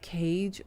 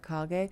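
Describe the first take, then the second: First: It sounds like the English word cage. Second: It is read as two Japanese-style syllables. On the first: The speaker calls it right. "It's more like cage" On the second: The speaker calls it wrong. "I was reading it with Japanese phonetics"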